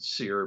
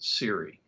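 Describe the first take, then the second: First: The word is said as one syllable. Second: The word is said as two syllables. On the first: This is how people say it nowadays. "nowadays I hear people pronounce it SEER" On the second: This is how it was said in the Cold War days. "but we pronounced it SERI"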